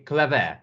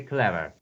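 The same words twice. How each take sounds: First: "clever" ending in a full open "eh" instead of a weak "er"; wrong full-vowel ending. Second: "clever" as CLEV-er, ending in a reduced schwa; weak unstressed ending. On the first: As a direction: say "clever" as cleh-VEH, second vowel unreduced. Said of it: "We don't say clever". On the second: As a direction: stress the start of "clever" and let "-er" go weak. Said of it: "We say clever". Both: Shown as a demonstration.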